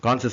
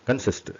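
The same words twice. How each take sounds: First: கான்சிஸ்ட் with a long open "kaan"; wrong long vowel. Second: கன்சிஸ்ட் with a short "kun" first syllable; correct short vowel. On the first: Teacher shows learners the mistake, long first vowel. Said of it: "சொல்லக்கூடாது". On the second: Teacher models the word for learners, short first vowel. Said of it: "கான்சிஸ்ட் சொல்லக்கூடாது". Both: Shown as a demonstration.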